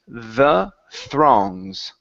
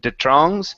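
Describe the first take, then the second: First: The word begins with a TH sound. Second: The word begins with a plain T sound. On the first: The speaker calls it right. "give me good T H's" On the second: The speaker calls it wrong. "give me good T H's instead of the trongs"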